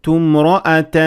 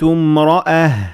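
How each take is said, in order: First: The word ends with a t sound. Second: The word ends with an h sound. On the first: The reader continues into the next word. "but when I kept on reading, it was a ta" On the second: The reader pauses on the word. "when I stopped at it, I pronounced it as ha"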